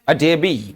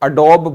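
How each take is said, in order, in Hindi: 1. इसके अंत में एक अतिरिक्त 'ee' ध्वनि जुड़ी होती है। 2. यह 'dobe' से खत्म होता है, आखिर में कोई स्वर नहीं है। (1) "लेकिन इट इज कॉल्ड अडेबी" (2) "इसको अडोब बोलते हैं"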